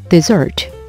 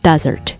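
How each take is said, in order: First: The stress is on the second syllable. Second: The stress is on the first syllable. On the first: It is the verb meaning to abandon. "버리다라는 동사가 될 때는 뒤로 강세가 들어가게 되거든요" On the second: It is the noun meaning a dry sandy region. "사막 같은 경우에는 앞에 강세가 들어가요"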